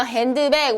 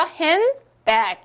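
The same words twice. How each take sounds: First: "핸드백" with the 드 syllable sounded; unreduced D. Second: "핸드백" drawn out as hen-bag, no D; dropped D. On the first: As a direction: read "핸드백" Korean-style, keeping the D. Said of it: "우리 이렇게 읽죠". ("핸드백"의 드를 살려서 읽기) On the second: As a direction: slowly model "핸드백" with the middle D gone. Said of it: "이렇게 발음을 하실 수". ("핸드백"을 드 없이 헨, 백으로 천천히) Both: Shown as a demonstration.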